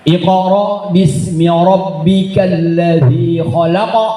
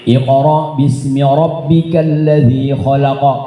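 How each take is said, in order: First: The final qaf bounces strongly and very clearly. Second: The final qaf bounces lightly, with no glottal catch. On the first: This is the Levantine style of recitation. "lebih kuat lagi, lebih jelas lagi ... mantul dan sangat mantul" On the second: This is the Egyptian style of recitation. "Ini Misri. ... gitu aja. Tidak ada unsur hamzahnya"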